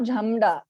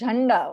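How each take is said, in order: First: The nasal before the 'd' sounds like 'm'. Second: The nasal before the 'd' sounds like 'n'. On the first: The speaker calls it wrong. "This is not jhamda" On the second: The speaker calls it right. "This is jhanda only"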